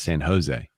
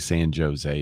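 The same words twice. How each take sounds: First: The J is said like an English H. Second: The J is said like an English J. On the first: The speaker calls it right. "it's San Jose" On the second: The speaker calls it wrong. "we don't say San Jose"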